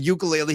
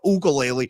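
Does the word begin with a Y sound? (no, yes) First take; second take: yes; no. First: The word begins with a Y sound. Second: The word begins without a Y sound. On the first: This is how most people say it. "with the Y sound like the rest of the world" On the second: This is one person's own quirky way of saying it. "Not with a Y"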